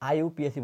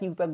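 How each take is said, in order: First: It is spelled out letter by letter. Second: It is said as one word. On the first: The speaker calls it right. "আইইউপিএসি বলতে হবে" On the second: The speaker calls it wrong. "অনেকে ইউপ্যাক ইউপ্যাক বলে, ইউপ্যাক বলা যাবে না"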